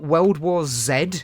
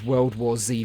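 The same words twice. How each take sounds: First: The letter is pronounced the British way, 'zed'. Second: The letter is pronounced the American way, 'zee'. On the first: "just doesn't really have the same ring to it" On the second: "I'm British, and I shouldn't be pronouncing it as Z"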